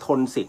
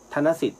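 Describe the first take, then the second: First: The word begins with the closed syllable 'thon'. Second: The word does not begin with 'thon'. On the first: The speaker calls it wrong. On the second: The speaker calls it right.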